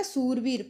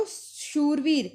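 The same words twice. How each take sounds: First: सूरवीर opening on plain s; Punjabi s form. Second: शूरवीर opening on sh, slow; sh form. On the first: Teacher showing the Punjabi form, सूरवीर with s. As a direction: swap sh for s in सूरवीर. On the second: Teacher giving the Hindi word, शूरवीर with sh. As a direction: draw out शूरवीर with initial sh. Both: Shown as a demonstration. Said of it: "Punjabi में हो जाएगा".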